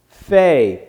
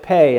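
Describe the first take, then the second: First: The word begins with an F sound. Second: The word begins with a P sound. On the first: "if you take that off of there, then it's pronounced Fay" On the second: "when that dot is in there ... so you pronounce it Pei"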